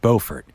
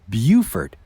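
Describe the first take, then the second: First: It uses the North Carolina town's pronunciation. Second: It uses the South Carolina town's pronunciation. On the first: This names the town in North Carolina. "it is in fact Beaufort" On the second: This names the town in South Carolina. "Beaufort is in South Carolina"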